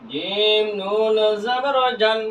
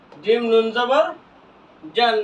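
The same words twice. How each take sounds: First: Slow recitation drill; evenly stretched syllables for learners; drawn-out spelling. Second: Said in the usual way. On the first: Shown as a demonstration. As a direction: hold জিম and নুন long. Same spelling repeated drawn out.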